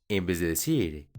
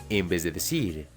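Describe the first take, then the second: No difference in how they are said.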